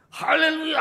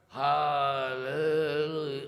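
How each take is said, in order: First: It is said loudly and with full energy. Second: It is said weakly and limply, without energy. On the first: The prayer is wholehearted and earnest. The speaker calls it right. "Sepenuh hati. Nyaring. Sungguh-sungguh" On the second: The prayer is half-hearted. The speaker calls it wrong. "Bukan juga lemas. ... Bukan begitu"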